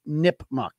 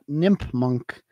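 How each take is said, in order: First: The name ends with a plain 'muck' sound. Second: The name ends with an added 'n', like 'munk'. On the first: The speaker calls it right. "Against Nipmuc" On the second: The speaker calls it wrong. "Not Nipmunk"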